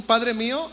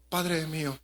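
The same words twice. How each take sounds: First: Exclaimed, desperate. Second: Soft, hushed "Padre mío", head bowed; quiet, downcast. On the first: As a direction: cry out "Padre mío" in desperation. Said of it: "Lo hizo exaltado". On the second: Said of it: "romántico, o silencio, cabizbajo". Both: Shown as a demonstration.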